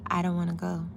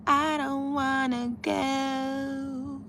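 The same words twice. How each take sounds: First: Said in the usual way. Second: Long, high, drawn-out whine; playful whine. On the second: Pretend. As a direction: drag it out slowly like a reluctant kid. Playfully repeats her reluctance.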